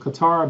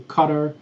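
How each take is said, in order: First: The name is said with an American pronunciation. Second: The name is said with a local pronunciation. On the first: The speaker calls it wrong. "Americans pronounce it Qatar" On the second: The speaker calls it right. "but it's actually Qatar"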